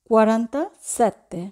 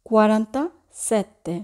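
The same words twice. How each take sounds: The two takes are said the same way.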